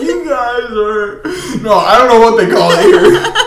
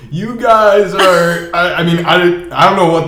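First: Laughing through it. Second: Slow and drawn out, holding in a laugh; slow, stifled laugh. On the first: Theo retries his answer to the hosts, laughing through it. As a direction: try to talk while cracking up. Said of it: "they just start dying laughing". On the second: Theo starts answering the British hosts, slow and stifled. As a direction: stretch it out as the laugh builds. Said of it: "he's, like, laughing still". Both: Retold or imitated.

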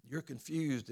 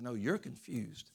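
First: "confused" raised, plain accusation; stress on confused. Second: Slow retort leaning on "you're"; stress on you're. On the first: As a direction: put the weight on "confused". Retold retort between two characters. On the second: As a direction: throw it back, punching "you're". Monkey turns the retort back. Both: Retold or imitated.

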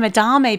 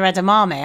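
First: EDAMAME as uh-DAR-may, quickly; mistaken pronunciation. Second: EDAMAME in full, ed-uh-MAH-may; corrected pronunciation. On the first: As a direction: drop the first syllable of edamame, uh-DAR-may. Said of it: "I've always called them". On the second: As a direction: give edamame all four syllables. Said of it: "but they're edamame". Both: Shown as a demonstration.

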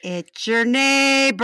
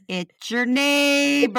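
First: Neighbor voice. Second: Slow, drawn-out "It's your neighbor". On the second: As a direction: say it slowly like the neighbor. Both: Retold or imitated. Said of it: "he said it just like that".

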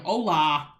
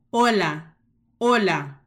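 First: "hola" with an open, wide O. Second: "Hola" with a tight closed O, louder. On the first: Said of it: "it's all open and oh". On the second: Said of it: "la O es cerrada". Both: Shown as a demonstration.

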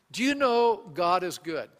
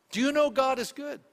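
First: Said in the usual way. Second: Rising preacher emphasis; higher, emphatic repeat. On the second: Shown as a demonstration. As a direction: Do you know God is good asked again higher, pressing the point. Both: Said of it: "repeated question".

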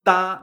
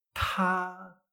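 First: "Ta" with a plain Spanish t, no puff of air; unaspirated ta. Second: "ta" drawn out with a puff of air after the t; aspirated ta. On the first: Teacher shows learners' wrong version, "Ta" unaspirated. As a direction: say "Ta" with the air held back. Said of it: "Ta no es". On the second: Teacher corrects many learners' mistake, "ta" clearly aspirated. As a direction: blow air out on "ta" and hold the vowel. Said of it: "es ta sacando aire". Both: Shown as a demonstration.

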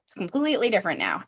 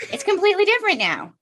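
First: Said in the usual way. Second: High, fast sing-song quote; mock exasperated realization. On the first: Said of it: "everyone that I know ... says". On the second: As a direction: toss it off in a high, quick mocking voice. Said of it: "And then you have your own child and you're like".

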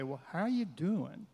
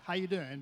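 First: Sincere tone. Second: Quick, tossed-off hello; empty casual greeting. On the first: Showing a greeting that truly asks, sincere and unhurried. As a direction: ask as if you want the answer. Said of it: "there's a tone of voice that can say". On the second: Showing how Americans greet in passing, casual and empty. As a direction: greet in passing without meaning it. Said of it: "But it means nothing". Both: Shown as a demonstration.

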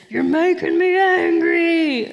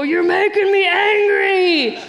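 First: Slow, booming growl of an angry toy monster; loud Hulk toy voice. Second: Slow, much higher, shouted toy-monster roar; shouting Hulk toy. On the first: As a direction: drag it out high and loud like a cranky stuffed Hulk. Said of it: "in the loudest voice". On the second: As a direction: bellow it out like the toy gone wild. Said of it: "and it would go". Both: Retold or imitated.

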